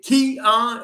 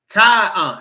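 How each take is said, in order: First: The first syllable sounds like 'key'. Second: The first syllable sounds like 'kai'. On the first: The speaker calls it wrong. "Is it Kai I or is it E?" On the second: The speaker calls it right. "It is Kai on"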